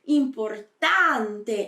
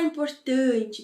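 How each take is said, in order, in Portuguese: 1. Ela é dita com sons italianos. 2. Ela é dita com sons do português brasileiro.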